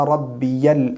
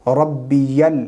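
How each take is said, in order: The two takes are said the same way.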